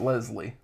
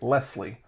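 First: The middle consonant is a soft Z sound. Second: The middle consonant is a hard S sound. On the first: The speaker calls it wrong. "not Leslie" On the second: The speaker calls it right. "It's a hard S, right?"

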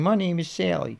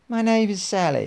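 First: It is spoken in a Baltimore accent. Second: It is spoken in a British accent. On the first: "I could give her a Baltimore accent" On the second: "I could give her a British accent"

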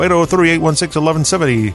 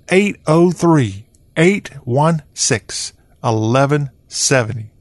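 First: The number is read quickly. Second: The number is read slowly.

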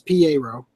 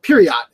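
First: The final t sound is silent. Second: The final t sound is pronounced. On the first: The speaker calls it right. "in the hiragana it says Piero" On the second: The speaker calls it wrong. "he calls it Piriot"

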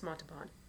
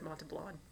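First: The name is said without an extra L sound. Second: The name is said with an extra L sound. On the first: The speaker calls it right. "It's Montalban. There's no L" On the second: The speaker calls it wrong. "You said Montalban"

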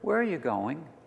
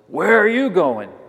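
First: It is said plainly, as neutral words. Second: It sounds hostile, like getting the last word.

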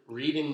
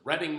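First: The first syllable sounds like 'reed'. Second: The first syllable sounds like 'red'. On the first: This is how the Michigan town is said. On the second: This is how the Pennsylvania town is said. "as opposed to Reading, Michigan, which is Pennsylvania people"

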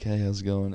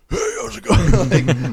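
First: It is said in a normal, natural voice. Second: It is said in a put-on, imitated voice.

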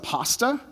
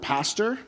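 First: It ends without the r sound, Australian-style. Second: It ends with an er sound, with r.

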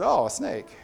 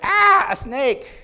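First: It sounds calm and unafraid. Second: It sounds frightened and alarmed.

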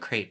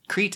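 First: The vowel sounds like the vowel in great. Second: The vowel sounds like the vowel in neat. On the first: "But Crete is great" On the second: "Crete is neat"

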